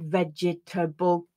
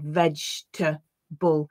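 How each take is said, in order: First: The word is said with four syllables. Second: The word is said with three syllables. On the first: The speaker calls it wrong. "my students will read that as a four syllable word" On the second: The speaker calls it right. "most of the time it's reduced to a three syllable word"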